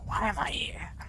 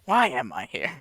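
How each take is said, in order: First: It is said in a whisper. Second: It is said in a silly voice.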